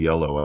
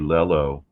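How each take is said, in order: First: The word begins with a Y sound. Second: The word begins with an L sound. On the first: This is the usual way to say it. "instead of" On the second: This is how it was said in childhood. "I guess this was a child speech impediment. I would say lello"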